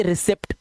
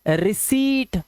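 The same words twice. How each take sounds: First: रिसिप्ट with short vowel and sounded p; wrong pronunciation. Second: रिसीट with a long, stretched ee and silent p; correct pronunciation. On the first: Teacher showing the mistake to avoid, रिसिप्ट with short vowel and p. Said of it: "इसे रिसिप्ट मत बोलना". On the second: Teacher fixing students' pronunciation, रिसीट said with long ee. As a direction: say रिसीट as ri-SEET, holding the ee. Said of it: "इसका pronunciation होता है". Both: Shown as a demonstration.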